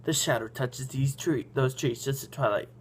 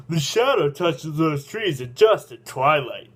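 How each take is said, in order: First: Said in the usual way. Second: Slow, deliberate character voice; Pancakeus. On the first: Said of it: "Oh, excuse me, everybody, I'm sorry". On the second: A narrator's reading. Guide explaining the trees to the old man, slow character voice. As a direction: pronounce it slowly and fully, in character. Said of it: "you explain".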